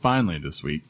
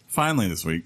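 First: Strained groaning read, redone on request; like a man in pain croaking it out; dinosaur voice. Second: Strained, groaning dinosaur-like read; like a wounded dinosaur croaking it out. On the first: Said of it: "Do it again". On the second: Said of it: "you sound like a dinosaur that's been shot". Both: Acted.

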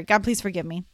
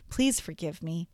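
First: Perfunctory plea for forgiveness; not meaning it. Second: Soft, low, heartfelt plea; meaning it. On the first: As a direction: rattle off the prayer without feeling. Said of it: "not saying it like you mean it". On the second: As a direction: ask forgiveness gently and earnestly. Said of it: "saying it like you mean it could sound more like". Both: Shown as a demonstration.

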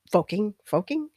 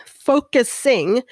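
First: Focusing said as "foking", the middle s syllable dropped; focusing slurred short, then questioned; mispronounced focusing. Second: Said in the usual way. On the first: Real, not acted. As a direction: stumble on focusing, clipping it to two syllables.

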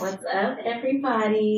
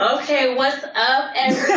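First: Soft, low and sultry greeting; low sexy voice. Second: Higher, brighter flirty greeting; playful medium-sexy hello. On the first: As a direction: purr the greeting quietly and low. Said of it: "don't put on your low sexy voice". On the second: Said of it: "Put on your medium sexy voice". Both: Pretend.

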